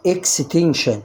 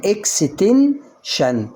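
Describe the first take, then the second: First: Said in the usual way. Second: "اكستنشن" broken before the final shun, first part stretched; split into parts. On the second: Shown as a demonstration. Teacher helps with a long word, "اكستنشن" split in parts. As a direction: say "اكستنشن" in slow chunks, pausing before "شن". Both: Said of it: "ولما تكون الكلمة طويلة عليك قسمها".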